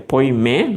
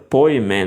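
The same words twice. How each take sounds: First: The stress is on the second syllable. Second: The stress is on the first syllable. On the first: It means shepherd. "o acento do poimen, do, do pastor seria poimen, no, no men" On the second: It means flock. "o acento do rebanho seria poimen"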